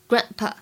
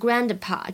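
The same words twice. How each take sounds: First: The d sound is not released. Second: The d sound is clearly released. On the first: The speaker calls it right. "明显有一个完全失去爆破" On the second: The speaker calls it wrong. "不要读成Grandpa，这样真的很难听"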